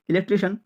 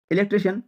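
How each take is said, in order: Both takes have the same delivery.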